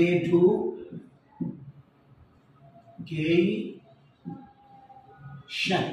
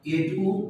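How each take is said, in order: First: এডুকেশন stretched very slowly in a British accent; drawn-out British accent. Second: এডুকেশন said flat, local style, no English stress; a careless local take on এডুকেশন; এডুকেশন mispronounced on purpose, Bangla way; wrong pronunciation. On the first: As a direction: draw out এডুকেশন, British style. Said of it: "এখানে একটা lapse করেছে". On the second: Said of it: "এটা কিন্তু রং". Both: Shown as a demonstration.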